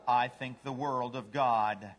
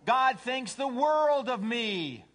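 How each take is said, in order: First: Low, slow, lightly voiced devotion; humble dog. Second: High, loud, drawn-out boast; self-centered cat. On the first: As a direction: say it slowly and low, sincerely. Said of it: "What's a dog say?". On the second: Acted. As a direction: gloat slowly at full voice. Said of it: "A cat says".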